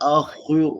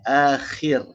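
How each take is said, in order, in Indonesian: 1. Suku kata pertama diucapkan dengan bibir dibulatkan. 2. Suku kata pertama diucapkan dengan bibir dilebarkan.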